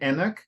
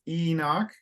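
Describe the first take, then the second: First: The stress is on the second syllable. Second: The stress is on the first syllable. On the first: The speaker calls it wrong. "I think you said Enoch" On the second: The speaker calls it right. "often in English, the emphasis is is sooner than the Portuguese pronunciation"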